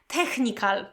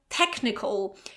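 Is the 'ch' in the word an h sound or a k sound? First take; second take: h sound; k sound. First: The 'ch' is said as an h sound. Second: The 'ch' is said as a k sound. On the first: The speaker calls it wrong. "very often I hear technical" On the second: The speaker calls it right. "this h sound, okay, is pronounced as k. So technical"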